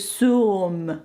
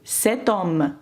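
First: No t sound links the two words. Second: A t sound links the two words. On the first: The speaker calls it wrong. "французи не можуть сказати «сьом». Це негарно" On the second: The speaker calls it right. "ми маємо поставити «те» та вимовити «cet homme»"

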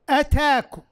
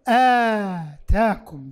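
First: The first vowel is kept short. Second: The first vowel is held long. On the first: It means 'it came to you'. "وقرئ بالقصر" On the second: It means 'he gave you'. "بالمد"

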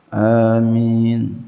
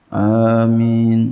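No difference in how they are said.

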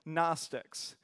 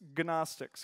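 First: The starting G is silent. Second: The starting G is pronounced.

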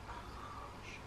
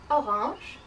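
First: It is said very quietly. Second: It is said at normal loudness.

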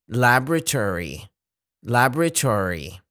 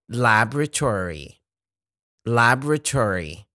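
The two takes are said the same way.

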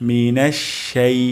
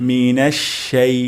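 No difference in how they are said.

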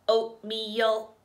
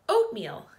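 First: It is said in a flat robot voice. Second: It is said in a plain, normal voice.

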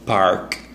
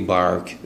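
First: The word begins with a breathy p sound. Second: The word begins with a voiced b sound. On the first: The speaker calls it right. "no it's park park like this" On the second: The speaker calls it wrong. "في ناس تقول لك إيه بارك"

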